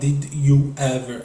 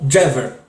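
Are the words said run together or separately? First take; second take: separately; run together. First: Each word is said clearly and separately. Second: The words are blended into one short word. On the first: "Ela não fala Did you ever" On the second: "ela fala Did you ever ou Jever"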